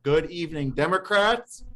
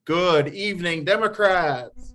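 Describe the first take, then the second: First: High, rising call to the room; raised-pitch opening greeting; customary meeting greeting. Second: Loud, high call with drawn-out "Democrats"; rally the room to answer back louder; high, stretched-out crowd greeting; bigger rallying greeting. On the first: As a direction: greet the crowd brightly, lifted at the end. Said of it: "as we always start". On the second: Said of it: "Let's try it one more time". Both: Real, not acted.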